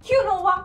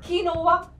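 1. यह तीन सिलेबल में kyunova जैसा बोला जाता है। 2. यह तीन सिलेबल में kinova जैसा बोला जाता है।

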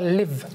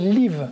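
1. La voyelle est un son « i » court et relâché. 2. La voyelle est un son « ee » long et tendu. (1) "On ne doit pas trop ouvrir la bouche, on doit faire « live »" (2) "francophones, on voit un i, on a envie de prononcer live"

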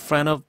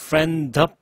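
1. d 소리는 빠지고, n이 of와 이어져요. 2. friend의 d 소리는 분명히 발음돼요. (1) "D를 죽이면서 N을 올렸죠" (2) "D 발음을 살렸고요"

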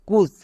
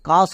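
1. স্বরধ্বনিটি 'oo'-এর মতো শোনায়। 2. স্বরধ্বনিটি 'ah'-এর মতো শোনায়। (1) "কুস না" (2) "কিন্তু CUS কাস হবে"

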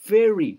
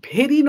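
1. এটি একটি নরম ইংরেজি v ধ্বনি দিয়ে শুরু হয়। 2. এটি একটি শ্বাসযুক্ত বাংলা bh ধ্বনি দিয়ে শুরু হয়। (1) "দেখো মুখটাও খুলছে না" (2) "ভেরি নয়"

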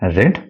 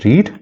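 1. സ്വരം short e ശബ്ദമാണ്. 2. സ്വരം long ee ശബ്ദമാണ്. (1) "പക്ഷേ നമ്മൾ പ്രൊനൗൺസ് ചെയ്യുമ്പോൾ റെഡ് എന്ന് പറയുക" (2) "സോ റീഡ് V1"

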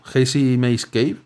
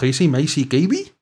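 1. Las vocales tienen sus sonidos habituales en inglés. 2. Cada vocal se pronuncia como un sonido 'ee'.

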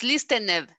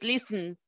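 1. La terminación -ed se pronuncia como una sílaba extra. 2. La terminación -ed no añade ninguna sílaba extra. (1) "No es listened" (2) "Siempre la e es muda"

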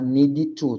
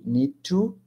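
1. Uma vogal extra vem depois de need e antes de to. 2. Need se liga direto a to, sem vogal. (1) "Não pode falar need to, tá? Não tem o i depois do need" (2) "Aí conecta com to"

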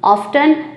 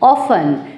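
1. बीच वाली t ध्वनि बोली जाती है। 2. बीच वाली t ध्वनि साइलेंट है। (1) "अमेरिकन में इसको कहा जाता है ऑफ्टन" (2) "ब्रिटिश प्रोनंसिएशन होगा ऑफन"

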